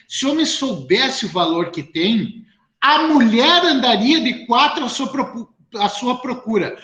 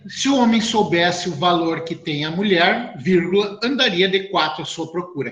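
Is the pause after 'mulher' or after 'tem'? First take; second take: after tem; after mulher. First: The pause comes after 'tem'. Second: The pause comes after 'mulher'.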